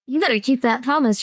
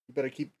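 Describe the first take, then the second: First: It is said in the character's voice. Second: It is said in the speaker's own voice.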